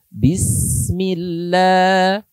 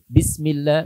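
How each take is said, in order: First: The s sound is held with flowing breath. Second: The s sound is rushed and cut short. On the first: The speaker calls it right. "ada nafas yang mengalir" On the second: The speaker calls it wrong. "dicepatkan suaranya sehingga suara rokhahnya hilang"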